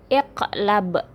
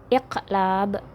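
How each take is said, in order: No difference in how they are said.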